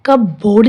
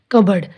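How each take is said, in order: First: कब बोर्ड split in two, full "board" ending; spelling pronunciation. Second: कबर्ड with no P, short reduced ending; silent P. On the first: Teacher showing the mistake to avoid, कब बोर्ड as two words. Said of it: "इसको हम कब बोर्ड नहीं बोलेंगे". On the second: Teacher showing learners the word, कबर्ड with silent P. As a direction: say कबर्ड as one smooth word. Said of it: "इसमें पी silent है". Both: Shown as a demonstration.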